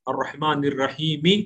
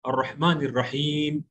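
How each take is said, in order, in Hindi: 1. आखिरी शब्द छोटी 'i' स्वर के साथ खत्म होता है। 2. आखिरी शब्द व्यंजन पर खत्म होता है, अंत में कोई स्वर नहीं। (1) "मिला के पढ़ने की सूरत में" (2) "आप रुक जाएंगे तो अर्रहमान रहीम बोलिए बस"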